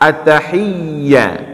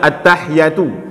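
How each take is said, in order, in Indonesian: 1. Bunyi y dibaca dobel dan ditahan. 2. Bunyi y dibaca tunggal dan pendek. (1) "ya juga bertash bertasydid" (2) "jangan kita baca"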